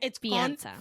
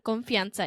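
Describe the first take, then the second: First: The word has a break before fianza. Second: The word is said as one unbroken unit. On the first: The speaker calls it right. "There is a separation" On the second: The speaker calls it wrong. "It's not confianza"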